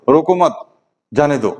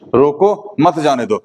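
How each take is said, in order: First: There is a pause right after 'मत'. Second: There is a pause right after 'रोको'. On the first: Do not stop him; let him go. "रोको मत comma जाने दो" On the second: Stop him; do not let him go. "रोको comma मत जाने दो"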